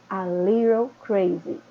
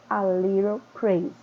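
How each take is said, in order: Both takes have the same delivery.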